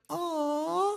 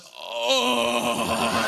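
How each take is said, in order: First: It is said in a soft, smooth voice. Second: It is said in a coarse, rough voice.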